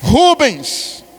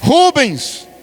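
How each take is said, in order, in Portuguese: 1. O nome termina com som de s. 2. O nome termina com som de s.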